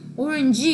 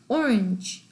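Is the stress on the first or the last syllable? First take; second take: last; first. First: The stress is on the last syllable. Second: The stress is on the first syllable. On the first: The speaker calls it wrong. "오렌지 이렇게 안 하잖아요" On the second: The speaker calls it right. "액센트가 처음에 온단 말이에요"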